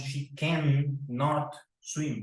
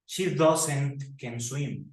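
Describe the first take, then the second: First: Slow, deliberate model; careful slow model; slow careful correct form. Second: Drawn-out mistake; slow wrong example. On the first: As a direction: spell out the right negative slowly. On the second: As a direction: stretch out the error. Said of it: "no decimos". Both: Shown as a demonstration.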